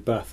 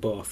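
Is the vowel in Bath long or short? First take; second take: short; long. First: The vowel is short, as in cat. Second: The vowel is long, as in father. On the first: The speaker calls it right. "I'm glad you say Bath" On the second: The speaker calls it wrong. "and not Bath"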